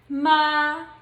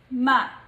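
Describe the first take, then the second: First: It is said in the first tone. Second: It is said in the neutral tone. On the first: "the pronunciation of the first tone would be" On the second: "the last one is the neutral tone"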